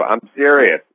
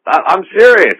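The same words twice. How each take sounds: First: Said in the usual way. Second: Much higher, louder, emphatic; exasperated, hammering the point home; loud, exasperated insistence at the pushy interviewer. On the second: Retold or imitated. Retold back-and-forth about Loveline.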